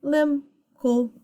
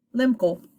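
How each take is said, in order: First: High "lim", gap, "cool"; syllable by syllable. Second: "lim, cool" joined quickly into one word; blended syllables. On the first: Teacher putting the two parts together, syllable by syllable. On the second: Teacher reads the whole pseudo word, blended. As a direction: run "lim" straight into "cool", high. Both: Shown as a demonstration. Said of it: "Put 'em together".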